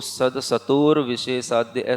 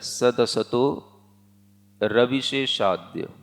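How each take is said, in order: First: The r sound ends the preceding word. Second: The r sound starts the following word. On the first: The speaker calls it wrong. "ऐसा नहीं पढ़ना" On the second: The speaker calls it right. "सदसतो र अलग से आगे वाले पद में जाएगा"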